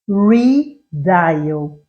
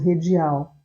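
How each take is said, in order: First: The word is said with English sounds. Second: The word is read with Portuguese sounds. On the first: The speaker calls it right. "O certo é redial" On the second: The speaker calls it wrong. "muita gente lia Redial"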